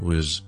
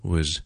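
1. 这个音读得很轻，元音弱化。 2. 这个音读得很轻，元音弱化。

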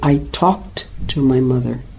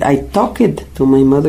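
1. La terminación se pronuncia como un sonido t. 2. La terminación se pronuncia como una sílaba extra. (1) "se dice" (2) "La tendencia es como si le agrega otra vez ed"

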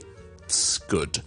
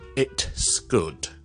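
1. T被顶住，直接连到S。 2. T在S前面会带一下气流放出。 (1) "先上咗去个T 音顶住咗个位先" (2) "我就唔会读成咧it's good"

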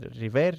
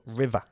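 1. La palabra termina en un sonido r claro. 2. La palabra termina en una vocal parecida a 'a'. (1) "No se dice river" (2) "sino river, como si acabase en A"

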